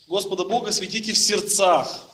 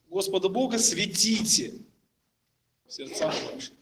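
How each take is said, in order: First: The stress falls on the words в сердцах. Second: The stress falls on the word светите. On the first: "сделают ударение на слово в сердцах" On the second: "сделают ударение на слово светите"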